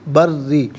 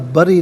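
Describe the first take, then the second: First: The r sound is doubled and held. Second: The r sound is short and single. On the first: The speaker calls it right. "रा मुशद्दद है, जमाव के साथ अदा किया जाएगा" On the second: The speaker calls it wrong. "बरी नहीं"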